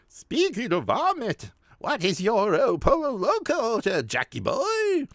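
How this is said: It is read in a put-on character voice.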